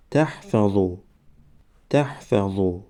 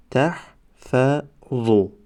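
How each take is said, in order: First: Said in the usual way. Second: Slow, syllables held and separated; slow syllable reading. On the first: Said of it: "باید به مثل خوانش سوم و چهارم". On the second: Shown as a demonstration. Teacher models first readings for learners, slow syllable by syllable. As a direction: sound it out for learners, pausing between syllables. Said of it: "بار یکم و دویم آهسته".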